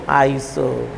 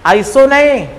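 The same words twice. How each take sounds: First: iso said low and soft, settled; right way. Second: iso नहीं called out high and loud; wrong way. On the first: Teacher giving the correct prefix, low and soft. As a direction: drop iso low and quiet as the correct one. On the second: Teacher mocking the students' wrong reading, high and loud. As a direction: bark out iso नहीं as the mistake. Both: Shown as a demonstration.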